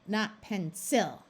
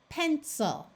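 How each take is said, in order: First: The stress is on the second syllable. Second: The stress is on the first syllable. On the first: The speaker calls it wrong. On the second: The speaker calls it right. "we are going to accent the first syllable"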